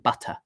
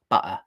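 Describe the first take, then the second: First: The middle t is a clear t. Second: The middle t is a glottal stop. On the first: "as opposed to" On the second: "Butter is the classic one"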